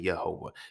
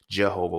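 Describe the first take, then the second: First: The name begins with a Y sound. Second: The name begins with a J sound.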